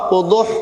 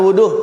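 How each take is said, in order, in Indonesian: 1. Bunyi h di akhir itu berat dan dari tenggorokan. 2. Bunyi h di akhir itu biasa dan ringan. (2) "jangan wuduh"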